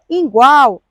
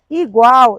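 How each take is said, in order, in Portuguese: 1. A palavra começa com o som nasal 'in'. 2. A palavra começa com o som de 'i' simples. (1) "Não é igual" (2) "é igual"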